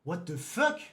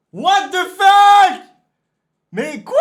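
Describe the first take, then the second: First: Said in the usual way. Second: Crié beaucoup plus aigu et fort, très lent; étire le cri comme un appel; hurlé et étiré. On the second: Real, not acted. Répète la réaction, cette fois hurlée. (hurlé, très aigu et étiré)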